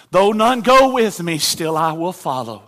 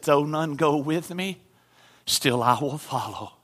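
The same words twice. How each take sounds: First: Higher and louder on the repeat, go ringing out; louder declaration. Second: Said in the usual way. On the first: Acted. Missionary defying the chief, loud and higher. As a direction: proclaim it this time. Hymn line repeated with force.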